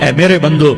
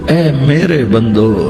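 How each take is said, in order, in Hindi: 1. यह सादे, बिना स्नेह वाले लहजे में कहा गया है। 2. यह गर्म, कोमल लहजे में कहा गया है।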